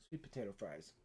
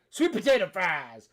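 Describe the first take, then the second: First: Said in the usual way. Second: Hammed-up high bellow; mock triumphant shout. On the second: Climax of mock exorcism.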